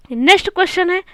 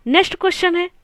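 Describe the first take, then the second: No difference in how they are said.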